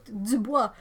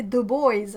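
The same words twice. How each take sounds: First: "Dubois" said the French way, "dü-BWAH"; French pronunciation. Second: Put-on "Dubois" corrected to English "doo-BOYZ"; anglicised pronunciation. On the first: Acted. French speaker showing they can say it right, French pronunciation. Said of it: "I can say it right". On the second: Locals correcting a French speaker's name, anglicised pronunciation. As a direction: say "Dubois" to rhyme with "boys". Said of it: "No, no, we say".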